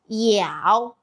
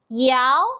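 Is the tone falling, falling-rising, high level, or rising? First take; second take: falling-rising; rising. First: The pitch dips low, then rises. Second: The pitch rises from middle to high.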